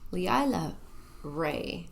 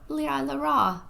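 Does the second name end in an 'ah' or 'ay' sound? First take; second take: ay; ah. First: The second name ends with an 'ay' vowel. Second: The second name ends with an 'ah' vowel. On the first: The speaker calls it right. "Leila Ray, not Leila Ra" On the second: The speaker calls it wrong. "not Leila Ra"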